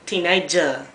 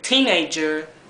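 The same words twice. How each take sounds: First: The final R sound is dropped. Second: The final R sound is clearly pronounced. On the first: "they say teenager" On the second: "They don't say teenager"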